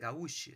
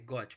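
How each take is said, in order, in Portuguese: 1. É lida como está escrita, com o ú tônico. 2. É dita do jeito francês, como gôt. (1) "mas a pronúncia não seria gaúche? Não" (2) "é gote, porque ele vem do, do francês"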